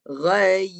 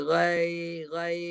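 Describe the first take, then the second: First: "Ghai" loud, with a firm closed final y; fully sounded ya. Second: "Ghai" with a weak, open final glide; tongue not raised. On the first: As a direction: raise mid-tongue and hold the y in "Ghai". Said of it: "Ha, baru bunyi tu". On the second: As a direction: demonstrate faulty "Ghai", the y barely sounded. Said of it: "Kalau tak naik, bunyi, dia tak ada bunyi". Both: Shown as a demonstration.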